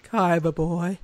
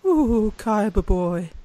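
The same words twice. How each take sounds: First: Short, lower sultry villain line; a lighter echo of the seductive villain; Pegasus voice. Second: Slow, sultry villain purr; Pegasus impression. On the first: Retold or imitated. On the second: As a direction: drawl it out like a seductive villain. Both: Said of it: "I think I can do Pegasus".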